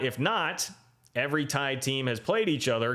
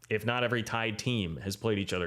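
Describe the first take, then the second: First: There is a pause right after 'if not'. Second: There is no pause after 'if not'. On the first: The condition is split oddly from the rest. The speaker calls it wrong. "I read that with the pause for a comma that makes zero sense" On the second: The condition is that not all tied teams met. The speaker calls it right. "You take out the stupid comma that shouldn't be there"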